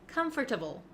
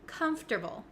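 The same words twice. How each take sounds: First: It is said with four syllables. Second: It is said with three syllables. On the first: The speaker calls it wrong. "a lot of my students like to say comfortable ... sounds a little bit clunky and not really correct" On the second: The speaker calls it right. "this word is pronounced comfortable"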